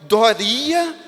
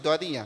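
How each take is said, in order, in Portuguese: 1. O nome é dito em tom emocional e alterado. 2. O nome é dito em tom simples e neutro. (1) "isso é um ponto de exclamação. Aqui muda-se o sentido" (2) "não tem ponto de exclamação. Eu só estou falando o seu nome"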